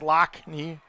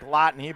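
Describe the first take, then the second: First: The middle consonant is a k sound. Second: The middle consonant is a t sound. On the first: This is how the family says the name. "I believe they want to pronounce Lockney. That's the traditional pronunciation" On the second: This follows the written spelling of the name. "even though it is spelt more like Lotney"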